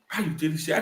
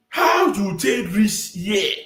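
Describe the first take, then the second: First: Said in the usual way. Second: Very slow, drawn-out incredulous question; exaggerated demand. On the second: Commentator asking Obi how he got here, slow exaggerated demand. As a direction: stretch each word of the challenge. Mock confrontation, first take.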